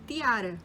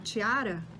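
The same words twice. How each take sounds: First: The T sounds dry and plain. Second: The T sounds soft, close to 'ch'. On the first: This is how it sounds in Spanish. "em espanhol o T é mais seco" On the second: This is how it sounds in Rio Portuguese. "parece um T H"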